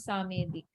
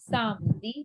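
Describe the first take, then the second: First: Samedi as three syllables, "sa-may-dee"; mispronounced middle e. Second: Samedi in two syllables, "sam-dee"; silent middle e. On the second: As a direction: drop the e in Samedi. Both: Shown as a demonstration. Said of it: "It's not samedi".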